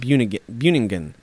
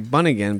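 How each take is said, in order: First: The name is said without an American-sounding pronunciation. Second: The name is said with an American-sounding pronunciation. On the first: The speaker calls it right. "I feel like that's the way you say it" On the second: The speaker calls it wrong. "that sounds super American"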